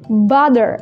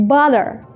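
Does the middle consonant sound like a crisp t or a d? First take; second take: d sound; d sound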